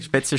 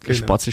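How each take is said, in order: First: The word is said in Augsburg dialect form. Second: The word is said in Bavarian dialect form. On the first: "Würde das auf Augsburgerisch sein?" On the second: "sagt immer auf Bayerisch"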